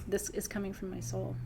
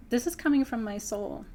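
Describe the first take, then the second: First: Repeated softly. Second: Said in the usual way. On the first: Real, not acted. Repeats line, then softer.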